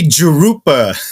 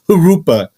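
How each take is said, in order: First: The name begins with an English J sound. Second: The name begins with a Spanish-like H sound. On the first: The speaker calls it wrong. "don't say Jurupa" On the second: The speaker calls it right. "like kind of like with an H, you know, like kind of like a Spanish word"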